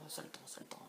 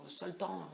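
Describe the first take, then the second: First: Soft repeated whisper. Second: Said in the usual way. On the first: Real, not acted. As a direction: whisper it to yourself. Repeats the phrase, then whispers it.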